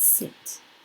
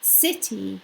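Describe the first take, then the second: First: The final vowel sound is dropped. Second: The word ends with a vowel sound. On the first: The speaker calls it wrong. "not sit" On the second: The speaker calls it right.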